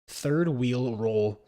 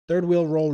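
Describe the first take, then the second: First: The phrase is said at a slow pace. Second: The phrase is said at a fast pace. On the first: "I can't even do it slow" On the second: "Do that fast"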